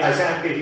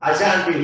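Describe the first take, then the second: No difference in how they are said.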